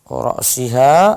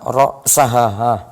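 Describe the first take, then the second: First: The vowel after the s is i. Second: The vowel after the s is a. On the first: The fish was eaten up to, but not including, the head. "Kalau ra'siha itu saya makan ikan sampai sebelum kepala... kasrah" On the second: The fish was eaten including the head. "hatta ra'saha, saya makan ikan sampai kepalanya kelahap juga"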